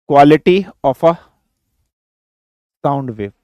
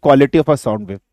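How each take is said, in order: First: Quality of a sound wave spelled out slowly with pauses; slow, spaced-out dictation. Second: Said in the usual way. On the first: Shown as a demonstration. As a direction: dictate it slowly so students can write. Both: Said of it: "third factor लिखिए".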